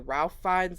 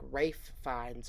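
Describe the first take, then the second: First: The first name is said with an L sound. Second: The first name is said without an L sound. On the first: This is how most people say the name. The speaker calls it wrong. "I'm just gonna say Ralph Fiennes like everybody else says" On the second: This is how the name is really pronounced. The speaker calls it right. "I could have sworn that it was pronounced like Rafe Fiennes"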